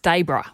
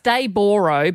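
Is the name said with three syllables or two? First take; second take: two; three. First: The name is said with only two syllables. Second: The name is said with all three syllables. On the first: This is how locals actually say it. "but it's Daybro" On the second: This is how the name is spelled. "It's Dayboro"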